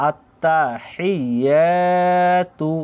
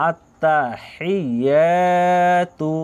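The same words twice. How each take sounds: The two takes are said the same way.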